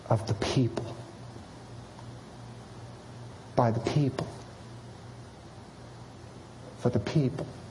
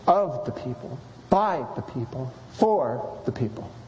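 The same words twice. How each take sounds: First: The stress falls on people each time. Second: The stress falls on of, by, for.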